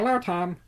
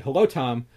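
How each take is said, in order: First: It is said in a modulated cartoon cat voice. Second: It is said in a normal speaking voice.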